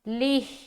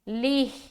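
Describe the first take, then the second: First: The syllable ends with a short vowel and h. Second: The syllable ends with a short vowel and h.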